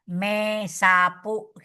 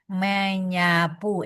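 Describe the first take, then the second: First: The prefix and stem keep a separate s sound. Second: The s is assimilated into a ny sound. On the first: The speaker calls it wrong. "nggak enak banget tuh ya" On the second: The speaker calls it right. "terjadi asimilasi di sini menjadi berubah dia menjadi menyapu enak"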